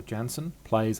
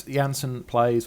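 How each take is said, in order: First: "Janssen" said JAN-sen; "Janssen" beginning like the word jam. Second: "Janssen" said YAN-sen; "Janssen" with J as in German. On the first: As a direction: say "Janssen" with an English J at the start. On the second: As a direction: say "Janssen" with a Y sound at the start. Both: Shown as a demonstration. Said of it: "I'm not sure how you pronounce his surname".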